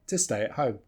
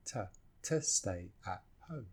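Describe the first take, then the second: First: Said in the usual way. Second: "to stay at home" in separate low, soft words, "to" as tuh. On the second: Shown as a demonstration. Teacher breaking down the last line, word by word.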